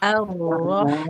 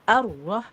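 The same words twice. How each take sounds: First: The doubled r is held with moderate length. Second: The doubled r is rushed and cut short. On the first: The speaker calls it right. "Dia tawasud. ... Antara mengalir dan tertekan" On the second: The speaker calls it wrong. "Jadi tidak arroh, jangan terburu-buru"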